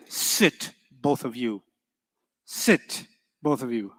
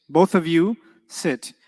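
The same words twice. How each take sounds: First: Spoken command. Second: Said in the usual way. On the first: Shown as a demonstration. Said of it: "But if I say". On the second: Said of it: "tajlisani means both of you sit".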